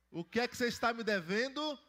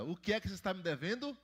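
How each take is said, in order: First: Higher and louder call to the crowd; louder prompt. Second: Said in the usual way. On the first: Shown as a demonstration. Pastor to children who did not answer, calling louder. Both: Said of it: "Não tô ouvindo as crianças".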